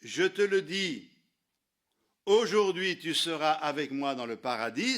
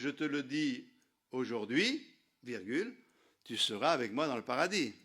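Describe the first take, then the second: First: The pause comes before 'aujourd'hui'. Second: The pause comes after 'aujourd'hui'.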